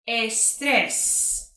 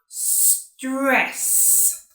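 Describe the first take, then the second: First: An extra e vowel comes before the s. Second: The word starts directly with the s sound. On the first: The speaker calls it wrong. "put the letter E in front of the letter S" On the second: The speaker calls it right. "avoid putting the e in front of the s sound"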